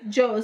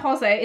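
First: The name is said as one syllable, Joe's. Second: The name is said as two syllables, Jose. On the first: The speaker calls it right. "it's Joe's. Like Joseph" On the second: The speaker calls it wrong. "It's not Jose"

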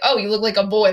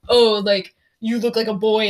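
First: It is said in a friendly, harmless tone. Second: It is said in an insulting, negative tone.

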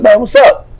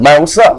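First: It sounds friendly and warm. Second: It sounds hostile and confrontational.

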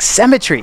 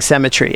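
First: The word is said in an exaggerated American accent. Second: The word is said in the speaker's normal accent. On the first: The speaker calls it wrong. "this disgusting, like, American word, like Cemetery" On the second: The speaker calls it right. "Cemetery was a perfectly good word"

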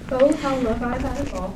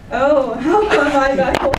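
First: It is said flatly, without exclamation. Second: It is belted out loudly, with exclamation.

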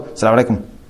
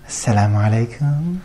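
First: It is said in a plain, firm voice. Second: It is said in a low, soft, sweet voice.

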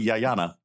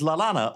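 First: The name starts with a Y sound. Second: The name starts with an L sound.

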